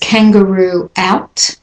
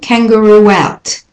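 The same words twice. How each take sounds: First: The words are said separately, without a linking sound. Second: The words are joined by a linking w sound.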